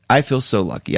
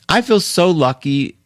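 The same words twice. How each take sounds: First: Quieter, heartfelt repeat; softer, sincere. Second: Lucky said higher, gushing. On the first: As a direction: say it again softly, meaning it. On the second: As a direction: lift it up with delight. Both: Shown as a demonstration.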